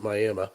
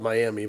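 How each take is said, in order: First: The name is said the local way. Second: The name is said the way it is spelled. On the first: "but they pronounce it Miami" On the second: "which is spelled Miami"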